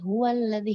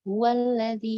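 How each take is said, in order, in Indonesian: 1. Diucapkan terburu-buru dan bunyi H hampir tidak terdengar. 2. Diucapkan terburu-buru dan bunyi H hampir tidak terdengar.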